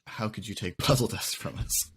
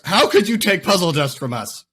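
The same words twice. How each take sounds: First: It is read in a plain, neutral tone. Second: It is read with dramatic, exaggerated outrage.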